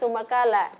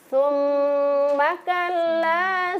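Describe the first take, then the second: First: The doubled consonants are cut short and rushed. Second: The doubled consonants are held long and clear. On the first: The speaker calls it wrong. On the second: The speaker calls it right.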